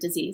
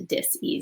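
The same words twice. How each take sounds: First: The word is said smoothly as one unit. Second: The word is split with a break after dis. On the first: An illness. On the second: A lack of ease in the body.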